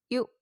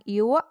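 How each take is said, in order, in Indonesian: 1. Suku katanya berakhir bersih, tanpa bunyi ekor. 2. Suku katanya berakhir dengan bunyi ekor. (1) "cara bacanya tidak berekor" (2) "Jangan yuk atau yuk. Salah"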